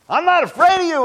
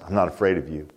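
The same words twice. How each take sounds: First: It is said loudly, almost screaming. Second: It is said in a weak, timid voice.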